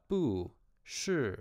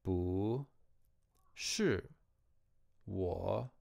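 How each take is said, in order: First: Bu said with a falling tone before shi; wrong tone demo. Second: Bu rises before falling shi; correct tone sandhi. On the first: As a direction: bu shi both falling, slowly. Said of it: "not bu shi ... but rather". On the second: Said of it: "the bu becomes a rising tone". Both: Shown as a demonstration.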